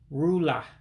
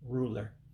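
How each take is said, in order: First: It is said in a Black American accent without final r. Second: It is said in a standard accent with final r.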